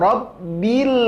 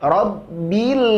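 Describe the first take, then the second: No difference in how they are said.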